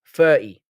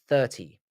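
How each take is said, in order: First: "Thirty" as "firty", louder; London f for th. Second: "thirty" with a clear th; careful th. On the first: Streamer showing the London in them, "Thirty" as "firty". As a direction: punch out "Thirty" with f and no t. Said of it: "London in me makes me wanna say thirty". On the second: Streamer correcting their London habit, "thirty" with careful th. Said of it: "I have to stop when I say it". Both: Shown as a demonstration.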